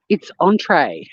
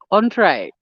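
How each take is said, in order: First: "entree" said the French way, nasal ahn-tray. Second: "Entree" said the French way, nasal ahn-tray; a repeat of French "Entree" as ahn-tray. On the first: Teaching viewers the French word, nasal ahn-tray. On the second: Correcting American usage for viewers, French ahn-tray. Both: Shown as a demonstration. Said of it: "does the word entree mean main".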